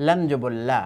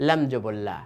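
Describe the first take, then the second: No difference in how they are said.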